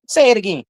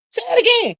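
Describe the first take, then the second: First: Said in the usual way. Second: "Say it again" jumped way up high and squealed. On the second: Shown as a demonstration. Host egging on chat, repeating it in a high squeal.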